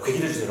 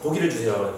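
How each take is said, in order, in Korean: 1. 고기라는 말은 'oe' 모음으로 시작해요. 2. 고기라는 말은 'o' 모음으로 시작해요.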